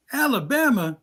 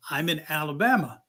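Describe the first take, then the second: First: Alabama pitched up in disbelief; incredulous Alabama. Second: Said in the usual way. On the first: Retold or imitated. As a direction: echo the word as if it can't be true. Caller disbelieving the answer.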